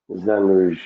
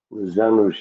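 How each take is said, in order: Both takes have the same delivery.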